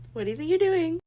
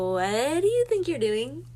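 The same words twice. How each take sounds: First: "What do you think you're doing?" again, even higher and louder; sharper repeat. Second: A louder, higher "what do you think you're doing?" with a rising end; indignant demand. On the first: Repeating to the date who took her card, louder outrage. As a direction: press him harder, fully outraged now. Repeats the demand more strongly. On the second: Catching her date pocketing her card, indignant and louder. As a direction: challenge him, startled and offended. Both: Retold or imitated.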